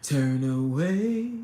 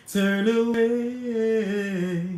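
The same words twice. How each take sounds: First: Low, slow movie quote; movie line impression. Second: Sung, high, very long sing-song quote; sung, movie line impression. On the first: Streamer quoting a favorite movie, low drawn-out imitation. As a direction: drop low and stretch the words. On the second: Streamer quoting a favorite movie, high drawn-out chant. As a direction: sing it out, stretching the last word. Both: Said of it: "you know that part".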